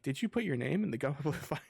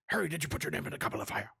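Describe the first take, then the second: First: It is asked in a calm, gentle way. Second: It is asked in an agitated, forceful way.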